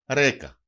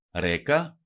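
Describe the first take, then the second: First: Ρέκα stressed on Ρέ, falling; penultimate stress. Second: Ρέκα stressed on Ρέ, low start and rising end; penultimate stress. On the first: Teacher showing two-syllable words to learners, first-syllable stress, falling. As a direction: hit the first syllable of Ρέκα, then drop. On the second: Teacher repeating the example for learners, first-syllable stress, rising. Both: Shown as a demonstration. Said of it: "τονίζεται πάντοτε η παραλίγουσα".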